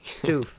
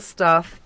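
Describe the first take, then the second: First: The vowel sounds like the one in hoof. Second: The vowel sounds like the one in stuff. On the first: "Like hoof" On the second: "I said it wrong"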